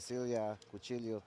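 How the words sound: The double L sounds like an English L.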